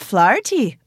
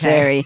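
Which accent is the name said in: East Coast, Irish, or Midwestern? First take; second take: Irish; Midwestern. First: The name is said with an Irish accent. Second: The name is said with a Midwestern accent. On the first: "dude's opening up the passports, he's like" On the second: "that's like a Midwestern situation"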